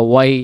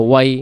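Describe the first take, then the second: Both takes have the same delivery.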